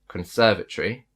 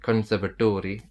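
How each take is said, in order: First: It has the British stress pattern. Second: It has a non-British stress pattern. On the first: The speaker calls it right. "British people pronounce it as conservatory" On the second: The speaker calls it wrong. "that's gonna sound fake"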